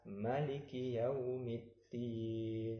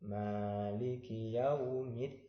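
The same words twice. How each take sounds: First: "Maliki" with a short, clipped "ma"; wrong short reading. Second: "Maliki" with a long, drawn-out "ma", chanted slowly; correct long reading. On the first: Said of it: "Tidak boleh kita membaca". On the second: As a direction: stretch the "ma" in "Maliki" as you chant. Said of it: "Bacanya harus panjang". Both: Shown as a demonstration.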